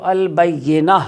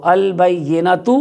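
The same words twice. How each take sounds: First: البینہ ending on a silent ha, no t; pausal form. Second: البینۃ said very slowly ending in a clear t sound; joined form. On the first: Teacher shows students the stopped form البینہ. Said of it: "لیکن اگر وقف کریں گے تو". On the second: Teacher slowly shows the joined reading of البینۃ to students. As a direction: draw out البینۃ and keep the final tan. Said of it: "یہ اس کی وصل کی حالت ہے". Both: Shown as a demonstration.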